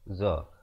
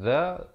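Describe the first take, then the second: First: The consonant is a plain 'z' sound. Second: The consonant is a soft 'th' sound. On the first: "zal dan zai" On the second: "zal dan zai"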